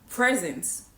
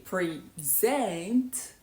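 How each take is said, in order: First: The stress is on the first syllable. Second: The stress is on the second syllable. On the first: It means a gift or the current moment. "If you stress the first syllable" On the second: It means to show or give a presentation. "if you stress the second syllable and say present"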